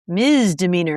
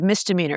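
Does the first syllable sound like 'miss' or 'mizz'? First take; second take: mizz; miss. First: The first syllable is a buzzing 'mizz'. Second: The first syllable is a hissing 'miss'. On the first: "it sounded to me like you said misdemeanor" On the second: "instead of misdemeanor"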